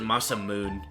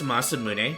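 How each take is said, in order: First: The name ends in one long syllable 'moon'. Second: The name ends with a separate final syllable 'neh'. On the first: This is how it was said in childhood. The speaker calls it wrong. "always pronounced it Masamoon as a kid" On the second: This is how the name is properly said. The speaker calls it right. "it's pronounced Masamune"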